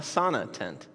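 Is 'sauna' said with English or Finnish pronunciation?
English. Sauna is said with English pronunciation.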